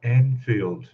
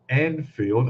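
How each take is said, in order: First: "Anfield" opening on a clear "an", as in ant; corrected Anfield. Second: "Anfield" slipping towards Enfield, opening on "en"; mispronounced Anfield. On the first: Streamer retrying a viewer's road name, carefully pronounced. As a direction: say "Anfield" as AN-field, not EN-field. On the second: Streamer stumbling over a viewer's road name, mispronounced. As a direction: say "Anfield" with a short e, as EN-field. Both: Real, not acted. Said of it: "I have a problem pronouncing that word".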